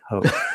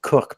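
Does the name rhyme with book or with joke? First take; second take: joke; book. First: The vowel sounds like the one in joke. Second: The vowel sounds like the one in book. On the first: "I'm told they pronounce it Coke" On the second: "I've often pronounced it Cook"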